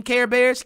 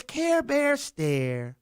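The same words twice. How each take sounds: First: Said in the usual way. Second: "Care Bears stare" drawn out very slowly, soft. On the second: Shown as a demonstration. Host mocking the world's dazed stare, "Care Bears stare" slow.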